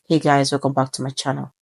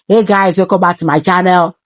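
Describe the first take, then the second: First: It is spoken softly with lips nearly closed. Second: It is spoken loudly and openly. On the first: The speaker calls it right. "more to keep my lips closed a bit. It sounds cool" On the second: The speaker calls it wrong. "I'm not supposed to speak loud"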